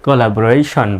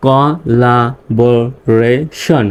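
First: Said in the usual way. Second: Collaboration very slow, in five separate parts; syllable by syllable. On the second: Shown as a demonstration. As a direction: split collaboration into co, la, bo, ray, shon with pauses. Teacher breaks word into syllables. (collaboration ভেঙে ভেঙে, খুব ধীরে)

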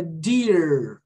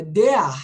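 First: DEAR ending on a long curled R; slow "dear" with vibrating English R; retroflex final R. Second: "dear" without the English R, ending in "ah"; open, H-like ending on "dear"; wrong final R. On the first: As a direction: hold the R of "dear". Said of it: "ou é dear?". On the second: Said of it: "É dear ou é dear?". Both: Shown as a demonstration.

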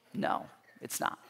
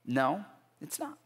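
First: Whispered no; whispered answer. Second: Said in the usual way. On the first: Real, not acted. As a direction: breathe the answer, unvoiced. Answers his own question.

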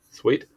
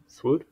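First: "Sweet" said as a rising guess; unsure first try: "Sweet"; trying a pronunciation. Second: "Swoot" said higher with a questioning rise; second guess: "Swoot"; alternate pronunciation. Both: Shown as a demonstration.

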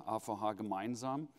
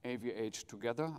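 First: "A V H Gemeinsam" with German letter names ah fow hah; motto in German. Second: "A V H Together" with English letter names ay vee aitch; motto in English. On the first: Speaker restating the motto in German, German pronunciation. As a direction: say "Gemeinsam" in German, stress on -mein-. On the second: Speaker restating the motto to the audience, English pronunciation. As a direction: spell out "A V H" the English way before "Together". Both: Shown as a demonstration. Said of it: "And our motto".

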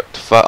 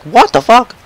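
First: Said in the usual way. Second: High-pitched mock disbelief; imitated shocked reaction. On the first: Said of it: "I thought there was a dead body". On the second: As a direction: replay your shock, pitched way up. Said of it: "I was like".

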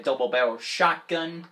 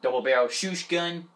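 First: Said in the usual way. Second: "shoosh gun", shot slurred into shoosh; mispronounced shotgun. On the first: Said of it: "I meant to say shotgun". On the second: Real, not acted. Player misreading a weapon name, "shoosh gun" for shotgun. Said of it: "I don't know why I said shoosh gun".

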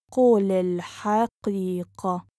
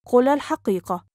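First: Measured, careful teaching pace. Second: Quick, flowing and joined up; fast model sentence; natural speed. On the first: Teacher repeats phrase slowly joined. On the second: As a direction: run the phrase together fluently. Teacher repeats phrase at speed. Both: Shown as a demonstration.

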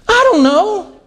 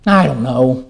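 First: Put-on high-pitched child's helpless answer; clueless child. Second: Low, defeated husband's answer; stumped husband. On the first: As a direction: answer like a kid with no idea. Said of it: "what will the child say?". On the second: Acted. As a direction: give up and admit it, pitched down. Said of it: "she says to her husband".

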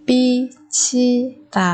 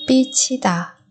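First: Very slow, separated "bichida"; syllable by syllable. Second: Said in the usual way. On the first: Shown as a demonstration. Teacher modelling a word for learners, very slowly. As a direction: pause after each syllable of "bichida".

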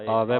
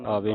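First: ਆਵੈ with a wide open "eh" ending; ਆਵੈ, last vowel open. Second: ਆਵੇ with a closed "ay" ending; ਆਵੇ said as aa-vay; mistaken e ending. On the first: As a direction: end ਆਵੈ on a broad ai. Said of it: "ਆਵੈ ਪੜ੍ਹਨਾ". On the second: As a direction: end ਆਵੇ on a narrow e. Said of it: "ਆਵੇ ਨਹੀਂ ਪੜ੍ਹਨਾ". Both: Shown as a demonstration.

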